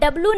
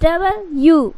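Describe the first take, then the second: First: The letter name is squeezed into two syllables. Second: The letter name is said in three full syllables. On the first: The speaker calls it wrong. "डब्लू नहीं पढ़ना है" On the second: The speaker calls it right. "डबल यू पढ़ना है"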